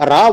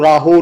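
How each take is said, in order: First: ਰਾਹ said "raa", ending on the open vowel. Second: ਰਾਹੋ said "raa-ho", aunkar voiced as "o"; wrong "ho" ending. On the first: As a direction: leave the final aunkar of ਰਾਹ silent. (ਰਾਹ ਨੂੰ "ਰਾ" ਵਾਂਗ, ਹੋੜੇ ਬਿਨਾਂ) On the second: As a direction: add a sounded "ho" to make ਰਾਹੋ. (ਰਾਹੋ ਦੇ ਅੰਤ ਵਿੱਚ "ਹੋ" ਬੋਲ ਕੇ) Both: Shown as a demonstration. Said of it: "ਇਹਨੂੰ ਰਾਹੋ ਨਹੀਂ ਪੜ੍ਹਨਾ".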